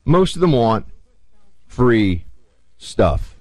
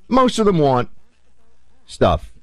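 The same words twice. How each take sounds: First: "free" set apart by pauses, "stuff" falling; spaced out: "free ... stuff"; slow pointed repeat; stress on FREE STUFF. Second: MOST hit high, then a pause before "stuff"; stress on MOST. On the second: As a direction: lean hard on "Most", drop on "stuff". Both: Shown as a demonstration.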